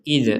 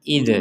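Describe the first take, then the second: Both takes have the same delivery.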